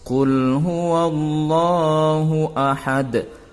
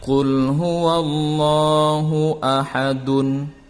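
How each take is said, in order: First: The final vowel ending is dropped. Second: The final vowel ending is pronounced. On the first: The reader stops at the end of the verse. "maka dimatikan atau disukunkan" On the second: The reader does not stop here. "yang dibaca tanpa waqaf"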